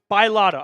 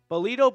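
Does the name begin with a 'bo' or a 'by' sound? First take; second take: by; bo. First: The name begins with a 'by' sound. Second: The name begins with a 'bo' sound. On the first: The speaker calls it right. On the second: The speaker calls it wrong.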